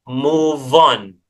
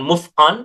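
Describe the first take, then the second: First: The two words run together without any break. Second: The two words are said separately with a break. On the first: The speaker calls it right. "tetapi move on ... dibaca langsung" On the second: The speaker calls it wrong. "bukan move on ... itu terpisah"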